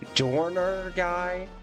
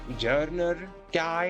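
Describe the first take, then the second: First: The first syllable has an O vowel. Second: The first syllable has a non-O vowel. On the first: The speaker calls it wrong. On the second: The speaker calls it right.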